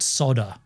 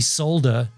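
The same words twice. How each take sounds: First: It is said in an American way. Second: It is said in a non-American way. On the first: The speaker calls it wrong. "not solder" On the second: The speaker calls it right. "it's definitely solder"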